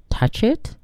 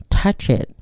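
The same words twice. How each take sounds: First: "it" rising high at the end; softer questioning echo, pitch climbing on "it". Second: Short command with a falling close. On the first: Narrator as startled child echoing an order, questioning. Listener echoes command as question. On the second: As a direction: say it as a statement, not a question. Command, then echoed as question. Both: A narrator's reading.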